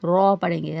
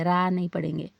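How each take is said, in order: First: "रॉ" said full and heavy, rounded like raw, louder; heavy raa. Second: "रा" said light and thin with an open a; thin raa. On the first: Teacher shows the heavy r to students, full and rounded. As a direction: make "रॉ" thick and rounded. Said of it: "उसको पुर पढ़ेंगे". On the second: Teacher shows students the wrong thin r, light and open. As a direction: keep "रा" thin and open, not rounded. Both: Shown as a demonstration.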